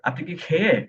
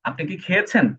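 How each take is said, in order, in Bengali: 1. শেষ শব্দটির শেষ অংশ বাদ পড়ে যায়। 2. শেষ শব্দটি পুরোটা বলা হয়। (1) "তারা এইভাবে বলে" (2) "আমি যদি প্রশ্ন করতে চাই"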